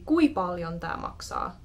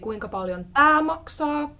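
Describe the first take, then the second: First: The first word is shortened to one syllable. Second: The first word is said in full, two syllables. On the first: It is a regional way to ask. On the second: It is the common way to ask.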